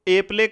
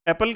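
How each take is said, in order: First: The second syllable sounds like 'play'. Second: The second syllable sounds like 'pul'. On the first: The speaker calls it wrong. "ए प्ले कभी भी नहीं कहते" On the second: The speaker calls it right. "एप्पल कहते हैं"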